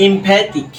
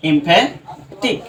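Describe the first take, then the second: First: Said in the usual way. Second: এমফ্যাটিক very slow, broken before the last syllable; slow, split এমফ্যাটিক with a rising end. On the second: Shown as a demonstration. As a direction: sound out এমফ্যাটিক as imphe, then tik. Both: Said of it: "এমফ্যাটিককে আমরা যদি এভাবে লিখি".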